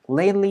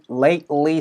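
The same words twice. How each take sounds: First: The sounds run together quickly and are reduced. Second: Every sound is pronounced fully and separately. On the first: "더 빠르게 연결될 가능성이 높아서 거의 lately" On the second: "원래는 lately 사운드로 lately, lately 사운드가 돼야 되는 게 맞는데"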